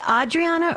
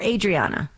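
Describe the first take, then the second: First: "Adriana" with an open AH as first vowel. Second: "Adriana" with a long A, as in day, first. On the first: Host checking a caller's name, "Adriana" said AH-dree-AH-na. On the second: Host checking a caller's name, "Adriana" said AY-dree-AH-na. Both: Shown as a demonstration. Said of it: "is it Adriana or Adriana?".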